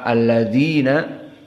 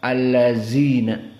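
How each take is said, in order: First: The consonant is a soft 'th' made with the tongue tip. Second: The consonant is a buzzing 'z' sound. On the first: The speaker calls it right. "makhrajnya dari atraful lisan" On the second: The speaker calls it wrong. "Maka ini salah"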